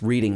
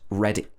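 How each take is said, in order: First: The first vowel sounds like "reed". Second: The first vowel sounds like "red". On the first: The speaker calls it wrong. "which is incorrect" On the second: The speaker calls it right. "Only when it's a place name is it pronounced Reading"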